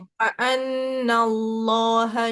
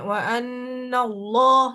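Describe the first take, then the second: First: The word flows out smoothly without a jolt. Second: The word is pushed out with an abrupt jolt. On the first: The speaker calls it right. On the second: The speaker calls it wrong. "nggak boleh di apa, dihentak gitu ... jangan gitu"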